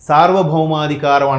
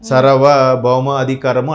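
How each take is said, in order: First: It starts with a long vowel, said as one word. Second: It starts with a short vowel, split in two. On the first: The speaker calls it right. "సార్వభౌమాధికారం అనడం రావట్లేదు" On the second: The speaker calls it wrong. "సర్వభౌమ అధికారము అనేది చదువుతున్నారు"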